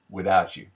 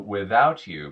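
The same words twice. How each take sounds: First: The t and y merge into a ch sound. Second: The t and y sounds stay separate.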